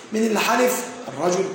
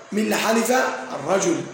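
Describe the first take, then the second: No difference in how they are said.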